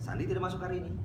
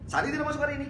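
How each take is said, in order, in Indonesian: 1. Diucapkan seperti pertanyaan. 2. Diucapkan seperti seruan kaget. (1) "Saya bertanya, apakah Sandi tidak masuk hari ini?" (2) "Saya terkejut atas ketidakhadiran Sandi hari ini"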